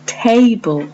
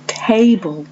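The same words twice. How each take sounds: First: Table said high, first syllable leading; table, TA-ble, as a model; model word. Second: Table again, stress on TA; TA-ble said once more; repeated model word. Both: Shown as a demonstration. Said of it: "as you can hear yourself, has got two syllables".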